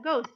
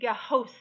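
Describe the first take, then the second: First: No H sound follows the G. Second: An H sound is heard after the G. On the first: The speaker calls it right. "you don't hear the H" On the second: The speaker calls it wrong. "I don't say"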